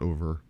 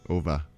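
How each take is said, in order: First: The word ends with an 'er' sound. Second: The word ends with an 'ah' sound. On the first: "Not over" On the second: "Ah instead of er"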